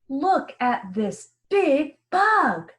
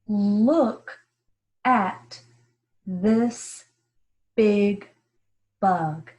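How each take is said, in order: First: It is read in an excited tone. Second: It is read in a plain, calm tone.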